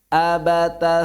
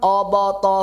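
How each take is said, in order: First: The first vowel is an open a. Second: The first vowel is a rounded o. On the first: The speaker calls it right. "abata saja" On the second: The speaker calls it wrong. "Bukan obata saja"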